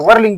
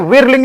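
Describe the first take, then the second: First: The first vowel sounds like 'er' in 'wer'. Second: The first vowel sounds like 'ih' in 'wir'. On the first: The speaker calls it right. "बल्कि वर्लिंग बोला जाता है" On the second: The speaker calls it wrong. "ये विरलिंग नहीं"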